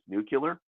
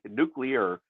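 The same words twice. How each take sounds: First: The middle is said like 'kyoo-lar'. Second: The middle is said like 'klee-ar'. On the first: The speaker calls it wrong. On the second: The speaker calls it right.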